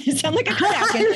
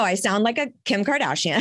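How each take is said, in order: First: Repeating it higher, through real laughter; giggling self-mockery; laughing. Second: Said in the usual way. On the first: Real, not acted. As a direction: crack up as you say it again.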